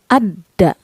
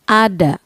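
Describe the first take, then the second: First: The d sound is held long and doubled. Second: The d sound is short and single. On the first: "Jika diberi tasydid, maka dibaca double" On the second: "Jika tidak ada tasydid"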